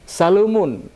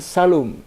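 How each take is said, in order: First: The word ends with a final -un ending. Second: The word stops short without the -un ending. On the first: "dia tanwin" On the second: "kalau kita bacanya dengan wakaf"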